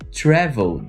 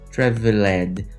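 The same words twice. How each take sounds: First: The ending is reduced to a D sound. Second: The ending is said as an extra syllable. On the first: The speaker calls it right. "O verbo travel no passado tem som de D" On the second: The speaker calls it wrong. "Você não pode ler traveled"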